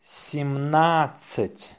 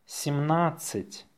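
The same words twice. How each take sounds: First: Slow, drawn-out dictation. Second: Natural-speed dictation, softer; faster. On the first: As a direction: say it slowly for learners. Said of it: "say it slowly". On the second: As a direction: say it briskly and lightly. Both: Shown as a demonstration.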